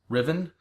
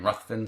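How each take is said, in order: First: The name is said without a 'th' sound. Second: The name is said with a 'th' sound. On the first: Others say it this way. "I've also heard it pronounced Riven" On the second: The speaker has always said it this way. "I've always pronounced it in my brain Ruthven"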